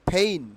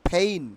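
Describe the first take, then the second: No difference in how they are said.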